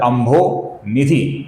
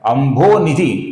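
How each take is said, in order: First: It is split into two separate parts. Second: It is said as one continuous word. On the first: The speaker calls it wrong. "ऐसा अलग अलग उच्चारण मत कीजिए" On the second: The speaker calls it right. "ये एक continuous नाम है"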